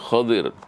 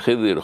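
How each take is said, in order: First: The first vowel is an 'a' sound. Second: The first vowel is an 'i' sound. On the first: The speaker calls it right. "yang benar adalah khadir" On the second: The speaker calls it wrong. "Jangan khidir"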